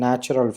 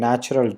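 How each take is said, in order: Both takes have the same delivery.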